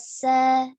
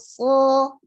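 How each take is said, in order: First: The consonant is light and thin. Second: The consonant is heavy and thick. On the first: The speaker calls it wrong. "dibaca sa, ya salah juga" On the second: The speaker calls it right. "Yang tadinya so"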